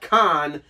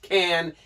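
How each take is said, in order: First: The vowel sounds like the one in cot. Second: The vowel sounds like the one in cat. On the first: The speaker calls it wrong. "and not Con" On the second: The speaker calls it right. "I'm pretty sure it's pronounced Can"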